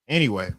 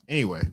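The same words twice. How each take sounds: No difference in how they are said.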